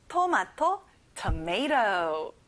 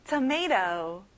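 First: "tomato" with a flapped t like an r; American flapped t in tomato; tomato without hard t. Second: "Tomato" ending in a light d-like flap; American tomato; flapped t. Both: Shown as a demonstration. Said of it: "끝에 T 발음이 안 나요".

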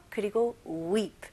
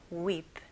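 First: Said in the usual way. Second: Quiet weep demo. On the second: Shown as a demonstration. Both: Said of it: "weep는 조용히 울 때".

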